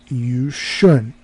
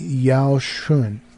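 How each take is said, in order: First: The first syllable is pronounced 'yu'. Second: The first syllable is pronounced 'yao'. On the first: The speaker calls it right. "It should be yu yu shun" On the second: The speaker calls it wrong. "I was like like saying yao shun, yao shun, and it, it, that's wrong"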